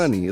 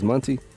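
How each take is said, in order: First: The t sound in the name is dropped. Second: The t sound in the name is clearly pronounced. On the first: "said like money" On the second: "cause I enunciate my T's, so it's Monty"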